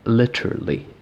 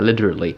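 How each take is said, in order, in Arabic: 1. يُنطق بلكنة بريطانية. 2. يُنطق بلكنة أمريكية. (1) "في اللكنة البريطانية" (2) "في اللكنة الأمريكية"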